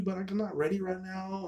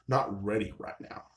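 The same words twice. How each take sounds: First: Higher-pitched imitated excuse; mock brush-off. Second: Slow mocking repeat of an excuse; deadpan echo. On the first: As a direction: pitch it up, imitating a reluctant woman. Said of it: "Instead of like". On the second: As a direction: echo the brush-off slowly, unimpressed. Echoes her excuse back, unimpressed.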